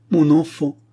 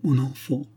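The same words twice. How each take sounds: First: « mon enfant » crié plus haut et plus fort, en sanglots; le deuxième appel éclate en pleurs; cri sanglotant. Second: « Mon enfant » dit plus haut, la voix qui se brise; sanglot naissant. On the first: (mère en deuil crie vers son enfant mort, en sanglots) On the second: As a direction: premier appel, en retenant un sanglot. (mère en deuil appelle son enfant, la voix brisée) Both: Acted. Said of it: "et s'écria avec des sanglots".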